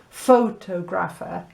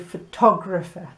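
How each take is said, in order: First: The stress is on the first syllable. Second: The stress is on the second syllable. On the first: The speaker calls it wrong. "You don't say photographer" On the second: The speaker calls it right. "then it's tog, isn't it, that has the stress"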